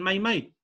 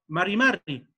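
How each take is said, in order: First: The R sounds are left out entirely. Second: The R sounds are pronounced strongly. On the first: "ni siquiera pronuncian la R y dicen mai mai" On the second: "más acento a la R"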